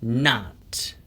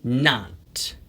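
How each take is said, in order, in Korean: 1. 미국식 억양으로 말합니다. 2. 미국식 억양으로 말합니다.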